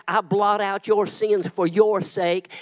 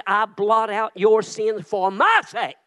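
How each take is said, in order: First: Slow, "your" stressed in "for your sake". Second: Slow, "my" stressed in "for my sake". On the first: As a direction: lean on "your" before "sake". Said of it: "It didn't say". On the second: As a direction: lean hard on "my" before "sake". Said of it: "God said". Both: Shown as a demonstration.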